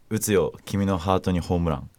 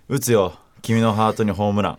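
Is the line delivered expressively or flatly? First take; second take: flatly; expressively. First: The line is read flatly, without much feeling. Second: The line is read with more feeling and energy.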